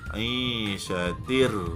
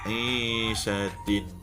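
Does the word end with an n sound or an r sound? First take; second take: r sound; n sound. First: The final n merges into a following r sound. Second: The word ends with a clear n sound. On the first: The reading continues straight into the next word. "bunyi nun itu kita idghamkan ke dalam bunyi bunyi ra" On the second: The word is read alone, stopping before the next word. "bunyinya tin"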